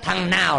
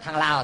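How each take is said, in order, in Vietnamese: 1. Từ thứ hai bắt đầu bằng âm N. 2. Từ thứ hai bắt đầu bằng âm L. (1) "Ông nói thằng nào lấy dép của ông" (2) "mà ông nói thằng Lào"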